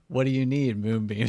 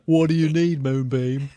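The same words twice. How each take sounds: First: It is said in the speaker's normal voice. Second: It is said in a put-on character voice.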